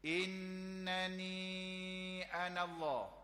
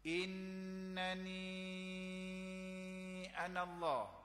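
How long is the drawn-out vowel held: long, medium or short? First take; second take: short; medium. First: The drawn-out vowel is held for two counts. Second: The drawn-out vowel is held for four counts. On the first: "Kita baca dua" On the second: "Kita baca empat"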